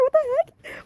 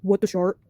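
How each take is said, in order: First: Much higher, slow, drawn-out shock; new high voice for her. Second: Lower, low-key startled try; a low test read of the girl's shock; first try at her voice. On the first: The girl caught in a towel, crying out much higher and slow. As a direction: stretch it out high like a startled girl. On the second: Testing the startled girl's voice, lower and subdued. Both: Shown as a demonstration. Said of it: "what should her voice be? It has to be really good".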